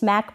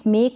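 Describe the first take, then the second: First: The vowel sounds like the one in 'cat'. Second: The vowel sounds like the one in 'lake'. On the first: The speaker calls it right. "स्मैक पढ़ें" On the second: The speaker calls it wrong. "इसको भी स्मेक ना पढ़ें"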